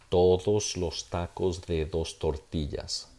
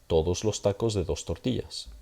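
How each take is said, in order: First: The phrase is said at a normal pace. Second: The phrase is said a little more quickly.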